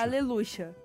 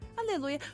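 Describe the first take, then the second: First: The middle consonant is a sh sound. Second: The middle consonant is a soft y sound. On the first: "na Argentina, tem som de X" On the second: "eles falam que tem som de I"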